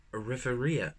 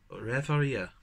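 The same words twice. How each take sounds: First: "Riveria" said ree-ver-ee-a, falling; "Riveria" with a short i, stumbling; careful first go at "Riveria"; first try. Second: "Riveria" with an open e in the first syllable; settling on "Riveria"; second try. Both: Real, not acted. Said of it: "I can never fucking pronounce this word".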